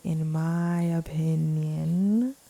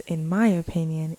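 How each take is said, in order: First: "in my opinion" stretched slowly, rising on "opinion"; drawn-out emphasis. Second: Said in the usual way. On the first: Real, not acted. Podcast host qualifying who really gets elected, drawn-out emphasis. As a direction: repeat "in my opinion" very slowly, lingering on "opinion".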